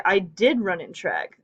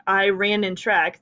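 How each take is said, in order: First: Did leaned on, falling after it; stress on did. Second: Said in the usual way. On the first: Shown as a demonstration. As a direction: land firmly on the word did. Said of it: "it emphasizes". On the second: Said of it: "that is a perfectly grammatical sentence".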